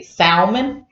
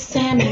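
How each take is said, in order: First: "salmon" as SAUL-mun, with the L; sounded L. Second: "salmon" as SAM-un, L silent. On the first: Wife quoting people she later corrects, "salmon" with the L. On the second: Wife correcting others as she was corrected, "salmon" with silent L. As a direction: softly correct it to "salmon" without any L sound. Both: Shown as a demonstration. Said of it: "not supposed to say the L".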